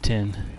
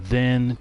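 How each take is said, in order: First: The word begins with a hard 't' sound. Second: The word begins with a soft 'th' sound. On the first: "he pronounces it t" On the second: "T H"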